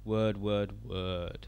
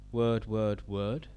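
First: The pitch falls at the end. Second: The pitch stays level throughout. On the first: "have it go down at the end" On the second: "it can stay the same the whole way through"

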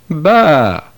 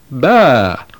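First: It starts with b and has an ah vowel. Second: The same.

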